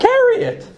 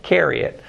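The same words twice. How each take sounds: First: Thick Brooklyn carry it; Brooklyn accent. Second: Said in the usual way. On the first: Shown as a demonstration. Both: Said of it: "my Brooklyn accent gets in there".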